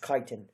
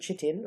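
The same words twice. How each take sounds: First: The word has the speaker's own preferred pronunciation. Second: The word has an alternative, rejected pronunciation. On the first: The speaker calls it right. "It's chitin" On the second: The speaker calls it wrong. "not from chitin or however uh, else people want to pronounce it"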